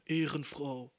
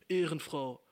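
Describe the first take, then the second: First: Offhand "Ehrenfrau" tossed out; casual youth slang. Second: "Ehrenfrau" said again, a bit louder and flat; repeated slang, louder. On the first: Little sister thanking her sister, casual slang. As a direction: drop Ehrenfrau casually, like schoolyard talk. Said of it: "Und sie dann so". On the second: Little sister repeating the word to her shocked sibling. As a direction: repeat "Ehrenfrau" plainly, unbothered. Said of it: "Sie so". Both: Retold or imitated.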